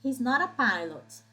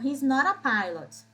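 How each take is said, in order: No difference in how they are said.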